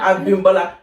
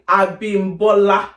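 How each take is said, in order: First: The name is said with a non-Nigerian pronunciation. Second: The name is said with a Nigerian pronunciation. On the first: The speaker calls it wrong. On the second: The speaker calls it right.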